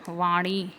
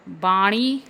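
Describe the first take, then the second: First: वाणी started with v; correct pronunciation. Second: वाणी started with b in place of v; wrong pronunciation. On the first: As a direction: say वाणी as vaaṇi. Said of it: "होता है". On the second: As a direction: say वाणी as baaṇi. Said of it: "नहीं होता". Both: Shown as a demonstration.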